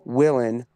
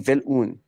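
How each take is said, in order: First: The surname is said with an American pronunciation. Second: The surname is said with a German pronunciation. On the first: This is how the family says the name now. "pronounced now Willen as per America" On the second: This is how the family used to say the name. "it used to be Vilun"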